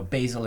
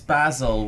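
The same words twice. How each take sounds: First: It is said in an American accent. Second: It is said in a British accent.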